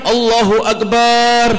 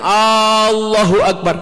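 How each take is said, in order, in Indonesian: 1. Bunyi b digandakan dan ditahan. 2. Vokal pertama dibaca panjang. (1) "baknya banyak" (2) "di depan alifnya panjang"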